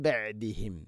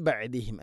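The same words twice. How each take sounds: First: ബഅദിഹിം after a humming nasal m; correct iqlab. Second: ബഅദിഹിം said plainly, no nasal merge; the mistaken ബഅദിഹിം without iqlab; wrong version. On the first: Teacher giving the correct reading, nasal. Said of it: "നൂനിനെ മീമാക്കി മാറ്റി മണിച്ചുകൊണ്ട് ഉച്ചരിക്കണം". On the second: Teacher showing the wrong reading, plain. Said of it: "ബഅദിഹിം അല്ല". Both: Shown as a demonstration.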